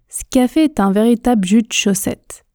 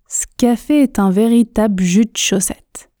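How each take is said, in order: No difference in how they are said.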